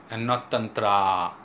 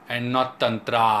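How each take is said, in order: The two takes are said the same way.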